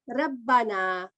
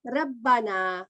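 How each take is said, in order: First: The R is light, with spread lips. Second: The R is light, with spread lips.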